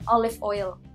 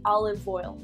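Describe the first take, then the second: First: The two words are said separately, not joined. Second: The two words run together as one word. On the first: This is how Indonesians usually say it. "Kalau saya orang Indonesia kan biasanya bilangnya olive oil" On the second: This is how Americans say it. "you wanna combine it together that it sounds like one word"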